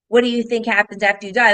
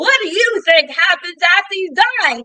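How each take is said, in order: First: It is said at a normal, conversational volume. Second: It is said loudly, like a yelled stage line. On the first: "Let's say the line is" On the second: "that's how some theater actors they say their line"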